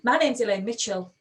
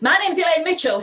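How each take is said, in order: First: The voice is firm and confident, not shouting. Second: The voice is loud and shouting. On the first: The speaker calls it right. "That confidence in the voice makes all the difference" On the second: The speaker calls it wrong. "be strong, not shouty"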